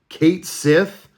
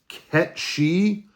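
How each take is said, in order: First: The name's second part sounds like 'sith'. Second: The name's second part sounds like 'she'. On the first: This is the pronunciation used in the remake. "they said it in remake as Kate Sith" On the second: This is the original Japanese pronunciation. "I think the Japanese original pronunciation is Ket She"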